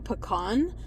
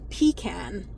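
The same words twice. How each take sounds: First: It is said the New Mexico way. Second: It is said the East Coast way. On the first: "We say pecan" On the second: "my friends that are from like, you know, like East Coast, they say"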